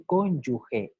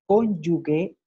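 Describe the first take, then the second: First: Cónyuge with a j sound, cón-yu-je; correct pronunciation cónyuge. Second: Cónyuge said with a hard g, cón-yu-gue; wrong pronunciation cónyuge. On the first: Teacher gives the correct form after the mistake, j sound. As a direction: say cónyuge with the throaty j. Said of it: "en vez de cónyuge". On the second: Teacher demonstrates the common mistake, hard g. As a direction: say Cónyuge with a g as in gato. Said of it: "Otro barbarismo muy común". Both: Shown as a demonstration.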